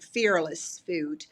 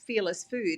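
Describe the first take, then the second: First: It is said in an American accent. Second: It is said in an Australian accent. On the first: "let me say it in American" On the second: "that's my Australian accent"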